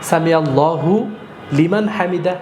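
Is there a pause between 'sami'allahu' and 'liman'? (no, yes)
yes. There is a pause between the words. The speaker calls it wrong. "এইভাবে বলার আপনার কোনো অপশন নেই"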